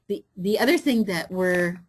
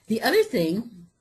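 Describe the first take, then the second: First: Faint, breathy sound off the mic; mic cutting out. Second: Said in the usual way. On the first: Real, not acted. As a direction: voice dropping off the microphone. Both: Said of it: "adjusting the sound, is that better?".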